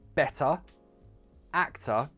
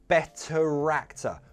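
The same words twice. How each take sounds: First: The words are separate with no linking R. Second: An R sound links the two words. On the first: "separately, that's fine" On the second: "We need to link those two words with that R sound"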